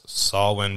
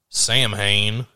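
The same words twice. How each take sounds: First: It is said with the Gaelic pronunciation. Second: It is said with an American pronunciation. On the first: "is pronounced Samhain because it's a Gaelic Celtic word" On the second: "if you're from America"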